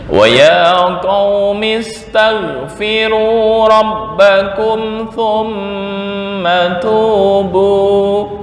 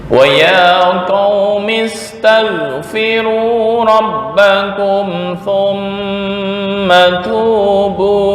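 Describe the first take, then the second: Both takes have the same delivery.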